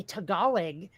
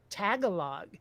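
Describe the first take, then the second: First: Ta-GA-log, stress on middle syllable; second-syllable stress. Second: TAG-a-log, stress on first syllable. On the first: Host quoting what they heard, stress on GA in Tagalog. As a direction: say Tagalog with the weight on GA. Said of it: "every time I heard someone say". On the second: Host admitting their wrong reading, stress on TAG in Tagalog. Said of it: "put the emphasis on the first syllable". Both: Shown as a demonstration.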